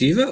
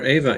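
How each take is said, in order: First: Eva opening on a long ee. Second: Ava opening on an AY sound. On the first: Host checks a film character's name, Eva as EE-va. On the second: Host checks a film character's name, Ava as AY-va. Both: Shown as a demonstration. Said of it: "was it Eva or Ava".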